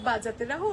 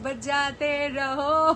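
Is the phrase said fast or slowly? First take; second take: fast; slowly. First: The phrase is said quickly and forcefully. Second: The phrase is said slowly and gently. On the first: The speaker calls it wrong. "ওরকম ভাবে বলবো না যে" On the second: The speaker calls it right. "ওরকম আস্তে আস্তে বলবো"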